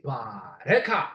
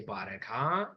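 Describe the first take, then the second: First: "bareka" slow, with a rising tone. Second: "bareka" quieter, with a low tone. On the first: Teacher modelling the rising tone of a Ge'ez word. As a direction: say "bareka" slowly, letting the tone climb. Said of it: "When you do it with the rising tone". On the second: Teacher modelling the low tone of the same word. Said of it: "when you say it with a low tone". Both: Shown as a demonstration.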